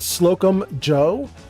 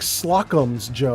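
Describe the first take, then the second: First: The first word ends without an s sound. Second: The first word ends with an s sound. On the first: The speaker calls it wrong. "I pronounce it wrong all the time. I pronounce it Slocum Joe" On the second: The speaker calls it right. "It's not. It's like Slocum's Joe or something like that"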